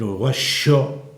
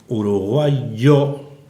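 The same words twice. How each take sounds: First: It is said the Uruguayan-Argentine way. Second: It is said without the Uruguayan-Argentine feature.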